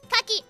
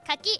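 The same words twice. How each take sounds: First: The word is said with a falling pitch. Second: The word is said without the falling pitch. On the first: It means persimmon. "It's the the falling one" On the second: It means oyster. "Kucky is oyster"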